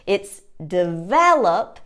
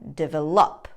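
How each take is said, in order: First: The stress is on the second syllable. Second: The stress is on the final syllable. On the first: The speaker calls it right. "The syllable stress is on the second syllable" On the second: The speaker calls it wrong. "putting the syllable stress on the final syllable"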